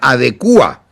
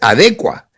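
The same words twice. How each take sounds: First: The stress falls on the u syllable. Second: The stress falls before the u syllable. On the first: The speaker calls it wrong. "no se pronuncia adecua" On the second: The speaker calls it right. "la palabra correcta es adecua. No tiene tilde en la U"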